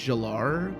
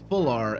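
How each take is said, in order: First: The name begins with a J sound. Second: The name begins with an F sound. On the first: "I think the F is silent" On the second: "and the J is silent"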